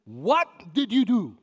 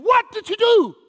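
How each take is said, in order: First: Suspicious wife asking. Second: Much higher, much louder accusing what did you do; wife's angry demand. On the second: Wife confronting her husband a second time, high and furious. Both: Retold or imitated. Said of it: "She said it again".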